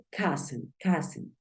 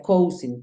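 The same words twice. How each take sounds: First: "cousin" said KAH-zen, short a sound; "cousin" with an uh vowel, not ow; correct pronunciation. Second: "cousin" said like it is spelt, KOW-sin; "cousin" read letter by letter, ow as in cow; spelling pronunciation. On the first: Teacher gives students the right way, "cousin" as KAH-zen. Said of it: "Se pronuncia cousin". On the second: Teacher shows students the wrong way, saying "cousin" like its spelling. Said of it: "hay gente que piensa que se pronuncia cousin". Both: Shown as a demonstration.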